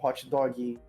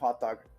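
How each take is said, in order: First: It has a Brazilian-style extra vowel after dog. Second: It ends on dog with no added vowel.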